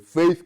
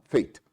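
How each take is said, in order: First: The word ends with a soft 'th' sound. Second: The word ends with a hard 't' sound. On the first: "tem faith, que é fé" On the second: "Só que os africanos falavam fate"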